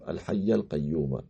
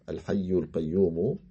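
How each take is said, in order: First: Al-hayy ends with an 'a' vowel. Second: Al-hayy ends with a 'u' vowel. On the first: "avec un nasb" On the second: "avec un rafa"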